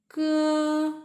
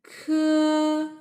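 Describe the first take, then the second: First: "ke" with no puff, close to g; high, level "ke" with an unaired k; unaspirated k. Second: "ke" with a puff of air after the k; high, level "ke" with an airy k; aspirated k. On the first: Teacher repeating the contrast, unaspirated "ke". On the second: Teacher repeating the contrast, aspirated "ke". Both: Shown as a demonstration. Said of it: "they are the unaspirated sound of these consonants".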